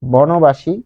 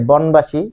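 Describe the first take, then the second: First: "বনবাসী" as bono-bashi, o after ন; linked compound pronunciation. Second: "বনবাসী" as bon-bashi, no vowel after ন; unlinked wrong pronunciation. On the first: Teacher offering a new example, joined bono-bashi. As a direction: join "বনবাসী" with a rounded o. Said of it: "কোনোদিন আপনি এটা পেয়েছেন". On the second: Teacher asking if anyone said it, unlinked bon-bashi. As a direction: close "বনবাসী" straight from n to b. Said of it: "কেউ কি বলেছে". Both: Shown as a demonstration.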